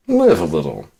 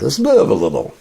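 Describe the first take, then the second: First: Said in the usual way. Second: Higher, louder hammed-up cheer; mock upbeat. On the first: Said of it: "repeated plainly". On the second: Shown as a demonstration. Repeating a motto to the listener, hammed-up high. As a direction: sell it like a cheesy motto. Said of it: "performed line, then repeated".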